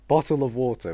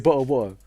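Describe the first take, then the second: First: It is said in a natural British accent. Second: It is said in an exaggerated stereotyped accent.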